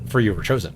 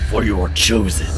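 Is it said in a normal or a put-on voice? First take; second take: normal; put-on. First: It is said in his normal voice. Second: It is said in a put-on character voice.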